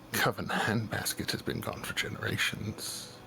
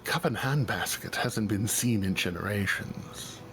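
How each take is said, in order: First: It is said in a put-on character voice. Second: It is said in the speaker's natural voice.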